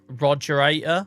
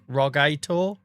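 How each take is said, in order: First: The word begins with the full sound 'roger'. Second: The word begins with a short 'ro' sound. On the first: The speaker calls it wrong. "I read that as the Roger Rogerator" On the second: The speaker calls it right. "then I realised it's Ro Rog Rogator"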